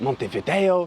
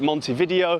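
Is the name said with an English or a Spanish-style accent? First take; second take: Spanish; English. First: It is said with a put-on Spanish-style accent. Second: It is said with a plain English accent.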